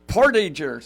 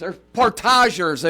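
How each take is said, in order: First: It is pronounced the plain English way. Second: It is pronounced the French way.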